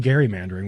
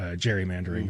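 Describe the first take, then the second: First: The word starts with a hard g sound. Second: The word starts with a j sound. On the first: This is the original form of the word. The speaker calls it right. "so it is actually gerrymandering. We've been saying it wrong" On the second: This is how people commonly say it. The speaker calls it wrong. "in popular vernacular"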